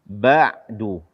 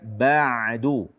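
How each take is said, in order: First: The ain sound is held tight and stopped. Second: The ain sound flows without being stopped. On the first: The speaker calls it wrong. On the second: The speaker calls it right.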